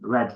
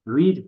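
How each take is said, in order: First: The vowel is short, like in 'bed'. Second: The vowel is long, like in 'need'. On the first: It is the past form of the verb. "जिस तरह colour रेड होता है ना" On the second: It is the present form of the verb. "The first form of verb will be रीड"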